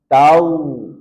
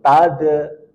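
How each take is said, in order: First: The consonant flows smoothly without a bounce. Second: The consonant is held and bounces. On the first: The speaker calls it right. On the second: The speaker calls it wrong. "Kalau ditahan, pasti dia akan memantul"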